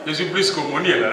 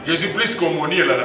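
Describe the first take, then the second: No difference in how they are said.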